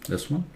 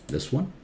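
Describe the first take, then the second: No difference in how they are said.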